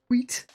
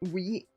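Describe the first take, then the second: First: The word begins with a strong breathy hw sound. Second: The word begins with a plain w sound.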